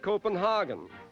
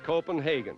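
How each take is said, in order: First: The name is pronounced the German way. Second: The name is pronounced the English way. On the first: "The Germans pronounce it" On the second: "in English it's"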